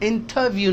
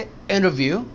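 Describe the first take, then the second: First: The t after n is clearly pronounced. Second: The t after n is dropped, sounding like innerview. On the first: The speaker calls it wrong. "नहीं है" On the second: The speaker calls it right. "ये टी भी एन हो गया इस एन की वजह से"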